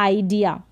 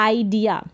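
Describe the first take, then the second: No difference in how they are said.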